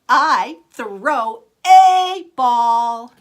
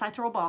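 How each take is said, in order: First: The word 'a' is said with marked, different intonation. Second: The sentence is said with plain, even intonation. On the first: The listener left out this word and should notice it. "say that the word that they messed up or the article they've left out with a different intonation" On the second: The sentence was read correctly. "They've read it correctly"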